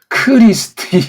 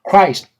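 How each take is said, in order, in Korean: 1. 이 단어는 여러 개의 음절로 나눠서 발음해요. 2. 이 단어는 한 음절로 발음해요. 한 호흡으로요. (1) "이렇게 말하면 걔네들이 알아먹지 못하고" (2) "이게 한 음절짜리예요... 한 호흡으로 한 숨결로"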